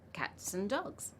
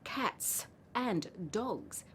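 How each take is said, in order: First: The word 'and' is reduced to a bare n. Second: The word 'and' is said in full. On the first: The speaker calls it right. "We skip some sounds and say n instead of and, and we use z for dogs" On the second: The speaker calls it wrong. "We don't actually say in conversation"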